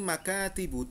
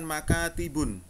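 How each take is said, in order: First: The word ends on a vowel, without n. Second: The word ends with an added n sound. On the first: The speaker calls it right. "Tidak digunakan domah tanwin di belakang makatibu" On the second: The speaker calls it wrong. "Salah sobat"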